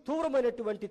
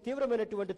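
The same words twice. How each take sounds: The two takes are said the same way.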